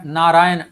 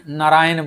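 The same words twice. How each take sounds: First: नारायण loud, with a long naa at the start; long first vowel. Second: नारायण with the first naa cut to a short na; shortened first vowel. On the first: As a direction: hold the opening naa of नारायण long and strong. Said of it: "ना जो है". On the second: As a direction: say नारायण as na-RAA-yan, opening vowel short. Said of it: "ये नौ में बदल गया". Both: Shown as a demonstration.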